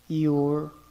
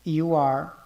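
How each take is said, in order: First: It is said as one short contracted word. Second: It is said as two separate full words. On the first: "a forma contraída" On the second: "vamos falar de forma cheia"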